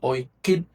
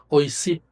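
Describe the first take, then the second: First: The middle consonant is a K sound. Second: The middle consonant is an S sound. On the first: The speaker calls it right. "se pronuncia Oiquip" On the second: The speaker calls it wrong. "O Y C I B alta, B la labial"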